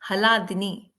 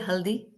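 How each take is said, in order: First: The word is said long, with four syllables. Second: The word is said short, with two syllables. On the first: The speaker calls it right. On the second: The speaker calls it wrong.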